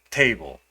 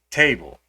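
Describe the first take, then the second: Both takes have the same delivery.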